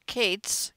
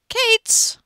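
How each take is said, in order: First: Said in the usual way. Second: Exasperated shout. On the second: Real, not acted. Exasperated at the kids, said twice.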